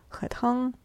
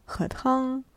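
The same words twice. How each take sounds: Both takes have the same delivery.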